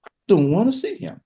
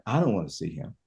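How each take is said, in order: First: Higher, hurt refusal; Mary refusing again, higher. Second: Low, quiet, weary refusal; Mary refusing, low. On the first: Mary to Jesus, turning him away, higher and hurt. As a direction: lift the pitch with wounded bitterness. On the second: Mary to Jesus, refusing to see him, low and weary. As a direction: sink the voice, tired and hurt. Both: Retold or imitated. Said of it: "It's like".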